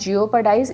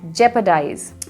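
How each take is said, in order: First: The first part sounds like jee-oh. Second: The first part sounds like jep. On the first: The speaker calls it wrong. "लोग इसको मिस pronounce करते हैं, इसको जियोपर्डाइज बोला जाता है" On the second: The speaker calls it right. "इसकी जो करेक्ट प्रोनाउंसिएशन है वो है जेपरडाइज"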